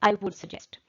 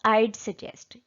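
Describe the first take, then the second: First: 'Would' is said in full. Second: 'Would' is shortened into a contraction. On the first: The speaker calls it wrong. "instead of saying" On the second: The speaker calls it right. "I just used contraction, short form"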